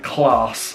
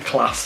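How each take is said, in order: First: The word is said in a non-Yorkshire accent. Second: The word is said in a South Yorkshire accent. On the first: This is how the other person says it. The speaker calls it wrong. "All he keeps saying is the word class" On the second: This is the local way to say it. The speaker calls it right. "proper South Yorkshire lingo"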